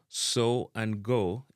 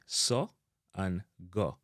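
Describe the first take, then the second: First: "so and go" with gliding "oh" vowels; English pronunciation. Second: "so" and "go" with hard short O; Jamaican pronunciation. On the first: Teacher giving the English words first, long O in "so and go". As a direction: say so and go as "soh, goh". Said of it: "so and go in a English". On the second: Teacher giving the Jamaican version, hard O in "so and go". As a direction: cut so and go to "soh', goh'" without glide. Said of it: "in a Jamaican". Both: Shown as a demonstration.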